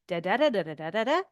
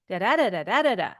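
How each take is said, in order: First: The pitch rises at the end. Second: The pitch falls at the end. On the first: A yes or no answer is expected. "then you know you need to answer yes or no" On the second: Some information is expected. "then you know I'm waiting for some information"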